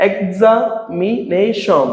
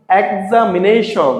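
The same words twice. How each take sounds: First: "examination" slowly as ek, za, mi, nei, shon; split into syllables. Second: Said in the usual way. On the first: Shown as a demonstration. Teacher showing many syllables, "examination" slowly split part by part. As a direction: pause after each part of "examination". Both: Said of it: "তিনের অধিক অংশ থাকে".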